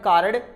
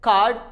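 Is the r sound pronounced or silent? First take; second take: pronounced; silent. First: The r sound is pronounced before the d. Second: The r sound is left silent before the d. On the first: The speaker calls it wrong. "It's not a कार्ड" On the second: The speaker calls it right. "अगर आर के पहले कोई vowel हो तो आर को हम silent करते हैं"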